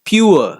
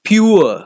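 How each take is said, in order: The two takes are said the same way.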